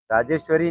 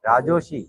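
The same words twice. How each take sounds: First: राजेश्वरी with the full ee and shwa, rajeshwari; wrong name. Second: राजोशी said as ra-jo-shi with an o; corrected name. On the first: Teacher tries the student's name as राजेश्वरी, the wrong version. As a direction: say राजेश्वरी as the long written form. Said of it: "राजेश्वरी नहीं है". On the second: Teacher repeats the student's corrected name राजोशी. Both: Shown as a demonstration.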